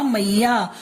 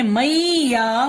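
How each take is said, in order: First: Said in the usual way. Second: मैया stretched slowly as mai-ya; syllable-by-syllable. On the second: Shown as a demonstration. Teacher showing the other sound, syllable by syllable. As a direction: draw out both parts of मैया. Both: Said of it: "अगर हम इसको बोलते हैं".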